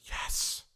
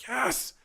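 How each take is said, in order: First: Hushed, whispered "yes"; soft, voiceless mock surrender; imitated weak yes. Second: High-pitched, rising "yes"; retold yes in a high voice; imitated elated yes. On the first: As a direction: let "yes" out on breath alone. Imitating man's first weak yes. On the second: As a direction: lift "yes" up high in release. Imitating man's repeated, stronger yes.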